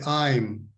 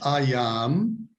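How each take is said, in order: First: The two words are joined into one syllable. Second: The two words are said separately in full. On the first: "La gente dice I'm" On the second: "esta es una buena forma de decirlo, pero la gente no habla así"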